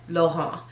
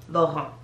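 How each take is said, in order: The two takes are said the same way.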